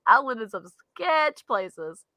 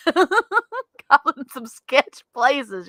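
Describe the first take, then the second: First: Slow, settled, with "sketch" drawn out; slow emphatic repeat. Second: Drawn-out words through real laughter; laughing. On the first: Confirming to co-host the sketchy homes, slow emphasis. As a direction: linger on "sketch", laughter now gone. Repeats admission after laughing. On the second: Admitting to co-host about sketchy homes, laughing. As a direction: laugh your way slowly through the admission. Laughing over bad past housing. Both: Real, not acted.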